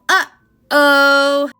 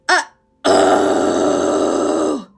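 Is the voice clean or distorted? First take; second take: clean; distorted. First: A bouncy uh-oh with a clean, undistorted voice. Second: A screamed uh-oh with a gritty, distorted voice. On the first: "We want a very bouncy uh-oh" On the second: "I'm going to be doing false fold to demonstrate this"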